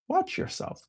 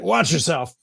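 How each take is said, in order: First: It sounds calm and reflective. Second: It sounds stern and threatening. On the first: An invitation to observe one's own thoughts. "I changed the tone of that word" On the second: A warning to be careful or face trouble. "he wasn't saying it like a like a Buddhist teacher"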